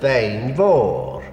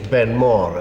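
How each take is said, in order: First: The name is said with Gaelic pronunciation. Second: The name is said with English pronunciation. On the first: "In Gaelic, it is" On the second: "in English, Ben More is a perfectly good pronunciation"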